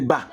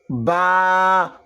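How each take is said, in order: First: The vowel is kept short. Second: The vowel is held long. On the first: "au lieu de bas" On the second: "ça allait nous donner le son bas"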